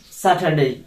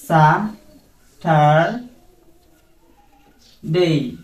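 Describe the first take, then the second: First: Said in the usual way. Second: "স্যাটারডে" very slowly, sa... tar... day; syllable-by-syllable pronunciation. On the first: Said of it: "like this". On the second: Shown as a demonstration. Teacher models Saturday for students, drawn out syllable by syllable. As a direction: split "স্যাটারডে" into three stretched syllables with pauses. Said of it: "like this you have to pronounce".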